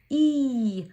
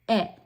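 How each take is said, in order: First: The vowel is said as its long letter name. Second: The vowel is said as a short clipped sound. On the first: "long vowel sounds are these names" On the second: "we're going to make them short"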